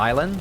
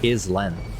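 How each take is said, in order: First: The word is said the usual way. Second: The word is said letter by letter as spelled. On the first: The speaker calls it right. "you call it an island" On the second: The speaker calls it wrong. "I thought this was pronounced island"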